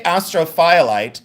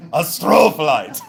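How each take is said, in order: First: "astrophyllite" as AS-tro-FY-a-lite; "astrophyllite" split as astro plus FY-a-lite; Google's pronunciation. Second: "astrophyllite" boomed as uh-STROOO-fuh-lite; hammed-up "astrophyllite", hard on STRO; imitated yell. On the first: Shown as a demonstration. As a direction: say "astrophyllite" with a long FY, as spelt. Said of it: "like Google says". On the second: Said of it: "but he says, one more time".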